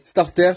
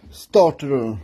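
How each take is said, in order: First: Said in the usual way. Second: "starter" in a lousy put-on English accent; bad English accent. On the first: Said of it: "cet accent anglais". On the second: Mechanic mocking his own English, bad English accent. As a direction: say "starter" like a Frenchman faking English. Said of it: "T'as vu cet accent anglais de merde?".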